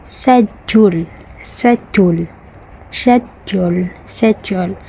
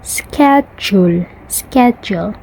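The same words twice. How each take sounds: First: Indian "schedule" without the k, like "shed-yool"; Indian accent. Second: American "schedule" with a hard k, "sked-jool"; American accent. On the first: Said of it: "For the Indian". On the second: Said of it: "but for American". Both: Shown as a demonstration.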